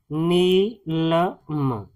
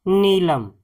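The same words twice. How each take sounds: First: नीलम very slowly as नी, ल, म; sounded out syllable by syllable. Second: Said in the usual way. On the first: Shown as a demonstration. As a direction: split नीलम into three separate sounds with pauses. Teacher sounds out the word.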